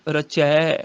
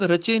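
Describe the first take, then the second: First: ਰਚੈ ending in long open ai; correct vowel shown. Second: ਰਚੇ ending in close e; wrong vowel shown. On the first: Teacher correcting the reading, ਰਚੈ with open ai. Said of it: "ਰਚੇ ਨਹੀਂ". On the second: Teacher showing the misreading, ਰਚੇ with close e. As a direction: end ਰਚੇ on narrow ay. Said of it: "ਸੰਗ ਰਚੇ ਨਹੀਂ". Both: Shown as a demonstration.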